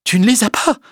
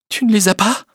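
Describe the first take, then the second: First: High, insistent rising question; distraught, high-pitched disbelief; incredulous repetition. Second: High, rising incredulous question; shocked, high-pitched query; stunned disbelief. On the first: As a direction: repeat it, more wounded and pressing. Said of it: "Elle répéta plusieurs fois". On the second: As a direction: ask as if unable to believe it. Stunned at being refused. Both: A narrator's reading.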